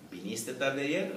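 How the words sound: It has the intonation of a question. It asks whether the listener came late yesterday. "Si es pregunta"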